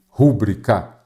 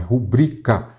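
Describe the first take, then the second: First: The stress is on the first syllable. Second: The stress is on the second syllable. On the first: The speaker calls it wrong. "nada de rúbrica" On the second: The speaker calls it right. "A sílaba tônica é ubrica, então é rubrica"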